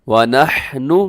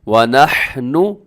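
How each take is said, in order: No difference in how they are said.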